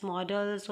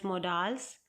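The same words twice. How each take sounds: First: "models" said as MOD-uls; short, weak second vowel in "models"; reduced second vowel. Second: "modals" said as mo-DAALS; full, open "a" in the end of "modals"; long second vowel. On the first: Teacher offering class one pronunciation, "models" with reduced ending vowel. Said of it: "You can pronounce it as". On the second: Teacher offering class the alternative, "modals" with long second vowel. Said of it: "you can pronounce it as modals". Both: Shown as a demonstration.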